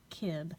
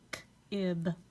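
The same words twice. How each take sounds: First: The sounds are blended into one smooth word. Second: The sounds are said separately with a break. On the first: The speaker calls it right. "sliding those sounds together" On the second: The speaker calls it wrong. "saying the individual sound"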